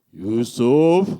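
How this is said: It is said in a deep fatherly voice.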